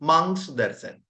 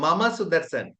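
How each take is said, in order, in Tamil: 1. முதல் சொல் ஒரு அசையாகக் குறுக்கப்படுகிறது, mang. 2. முதல் சொல் இரண்டு அசைகளாகச் சொல்லப்படுகிறது, mama. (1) "மம என்று சொல்றதை விட மங் என்று சொல்றது ஈஸி" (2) "கிராமட்டிக்கலா சரி"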